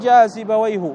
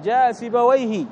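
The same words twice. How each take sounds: First: The name ends without a final 'i' vowel. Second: The name ends with a final 'i' vowel. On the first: The speaker calls it wrong. "ما تقول جاء سيبويه" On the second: The speaker calls it right. "مبني على الكسر"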